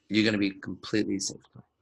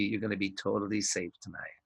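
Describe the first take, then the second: First: Calm, honest promise said with a smile; mean every word, reassure her; sincere reassurance. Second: Softer, lower sinister promise; creepy movie villain. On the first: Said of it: "With a smile". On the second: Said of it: "like a creepy movie". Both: Shown as a demonstration.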